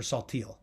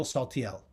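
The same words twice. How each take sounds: First: "Saltiel" said the modern Americanized way; "Saltiel" as people say the name nowadays; present-day pronunciation. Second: Put-on "Saltiel" as the old family name was said; original pronunciation. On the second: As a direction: give "Saltiel" its traditional Ladino pronunciation. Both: Shown as a demonstration. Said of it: "as the name is pronounced these days".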